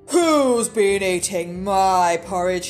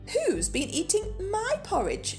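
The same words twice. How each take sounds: First: It is said in a deep, gruff voice. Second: It is said in a medium-pitched voice.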